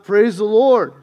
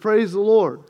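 First: It is said noticeably louder. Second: It is said at normal, softer volume.

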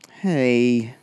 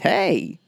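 First: It is said with sad, weary resignation. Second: It is said with sudden surprise. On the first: The speaker has given up and accepts it. "sad resignation" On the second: The speaker did not expect this. "It could be surprise"

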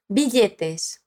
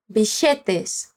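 First: The double L has no sh sound. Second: The double L has an sh sound. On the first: "como a gente falou agora" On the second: "Ela fala com o som de sh"

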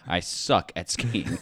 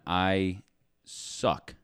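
First: It is said loudly. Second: It is said at normal volume.

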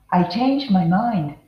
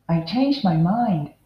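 No difference in how they are said.

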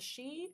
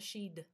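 First: The word ends on a vowel sound. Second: The word ends with a D sound.

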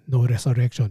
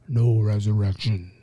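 First: It is said with a Filipino accent. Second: It is said in a deep villain voice. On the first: "Not with a Filipino accent" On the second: "with the Thanos voice"

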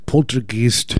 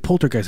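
First: It is said with a harsh German accent. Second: It is said with an ordinary English accent. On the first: The speaker calls it right. "you got to say it like an old Nazi" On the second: The speaker calls it wrong. "people always say poltergeist"

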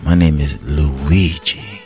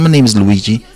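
First: It is said in a slow, seductive way. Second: It is said in a plain, ordinary way. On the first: The name sounds attractive. The speaker calls it right. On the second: The name sounds unappealing. The speaker calls it wrong.

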